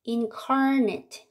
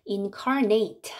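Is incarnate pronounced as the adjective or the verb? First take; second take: adjective; verb. First: It is pronounced the way the adjective sounds. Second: It is pronounced the way the verb sounds. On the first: It means having a body. "육체를 입은 하는 형용사가 되고" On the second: It means to give a body. "발음을 incarnate 하면 동사가 돼요"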